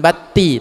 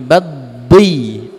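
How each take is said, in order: First: The middle consonant is a plain light t. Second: The middle consonant is a heavy emphatic d. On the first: The speaker calls it wrong. "Bukan bati" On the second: The speaker calls it right. "tapi baddi"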